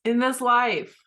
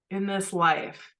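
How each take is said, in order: First: "in this life" pushed up high, landing on a firm fall; first "in this life" pitched up hard to make the point; emphatic insistence. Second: "in this life" repeated slower at normal pitch, falling gently; second "in this life" drawn out and easing off; slower echo. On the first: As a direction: lift "in this life" high and press it home. Insisting to husband, repeating phrase. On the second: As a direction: let "in this life" settle back down, unhurried. Repeating the phrase, settling back. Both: Retold or imitated.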